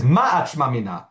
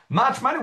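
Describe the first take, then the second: First: Said in the usual way. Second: "Ma Achma Mina" said high with a rising question tune. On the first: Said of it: "you saw the word "ma" here". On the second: Shown as a demonstration. Teacher turns the Gemara's words into a real question, rising. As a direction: lift "Ma" and rise at the end, asking. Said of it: "how can you learn from this?".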